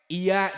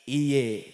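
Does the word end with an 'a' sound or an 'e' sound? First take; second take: a sound; e sound. First: The word ends with an 'a' sound. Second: The word ends with an 'e' sound.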